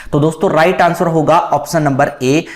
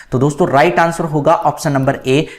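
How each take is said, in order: The two takes are said the same way.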